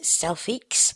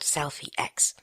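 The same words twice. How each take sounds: First: The X is blended into one word. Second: The X is said as a separate letter. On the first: This is how the screen reader says the name. The speaker calls it wrong. "VoiceOver pronounces it Selfiex" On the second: This is the app's real name. The speaker calls it right. "but it is called SelfieX"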